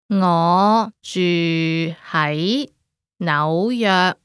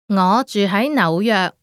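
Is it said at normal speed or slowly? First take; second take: slowly; normal speed. First: It is said slowly. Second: It is said at normal speed.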